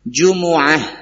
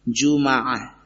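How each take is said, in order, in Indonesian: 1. Huruf m diikuti vokal u. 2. Huruf m diikuti vokal a. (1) "Ada yang membacanya dengan jumu'ah" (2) "bi fathil mim jumaah"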